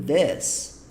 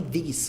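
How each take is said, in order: First: "this" with an open E vowel, like "des". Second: "this" said with an I vowel, like "dis"; "this" with a sharp I sound; wrong I vowel. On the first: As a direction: show the right vowel, "this" as "des". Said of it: "como se fosse um E". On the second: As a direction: show the mistake, "this" as "dis". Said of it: "como se fosse um I". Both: Shown as a demonstration.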